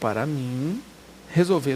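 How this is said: There is a pause between 'mim' and 'resolver'. The infinitive phrase is the subject of the sentence. The speaker calls it right. "Veja que houve uma pausa aí"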